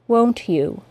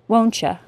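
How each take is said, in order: First: Both words are said separately, with no blending. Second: You is reduced to a casual ya. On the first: "articulate perfectly, with no assimilation" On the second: "as an informal contraction"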